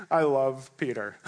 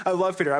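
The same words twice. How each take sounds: First: Said in the usual way. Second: I love Peter with love punched louder and higher; emphatic. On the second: Real, not acted. Preacher declaring affection for Peter, louder, stressing love. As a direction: lean hard on love.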